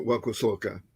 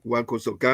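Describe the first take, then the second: First: Kosoka without stress on the final "ka"; accent off the last syllable. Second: Kosoka with the accent on final "ka"; stress on last syllable. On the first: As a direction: let "kosoka" fall away on its last syllable. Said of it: "my accent should have been on the last syllable". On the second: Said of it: "accent should have been on the last syllable". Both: Shown as a demonstration.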